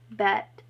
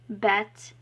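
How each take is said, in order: First: The final T is released softly. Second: The final T is released strongly. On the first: The speaker calls it right. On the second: The speaker calls it wrong.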